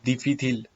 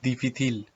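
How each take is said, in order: No difference in how they are said.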